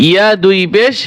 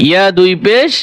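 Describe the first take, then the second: Both takes have the same delivery.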